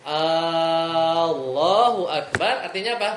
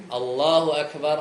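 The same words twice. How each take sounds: First: "Allahu" sung slowly with the first A long; long A mispronunciation. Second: "Allahu Akbar" slowly, with the short A; correct azan pronunciation. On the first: Teacher shows the wrong long-A "Allahu Akbar". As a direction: sing "Allahu Akbar" stretching the A. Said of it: "kalau ni A-nya panjang nih". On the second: Teacher shows correct "Allahu Akbar" as in the azan. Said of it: "kalau azan nih". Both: Shown as a demonstration.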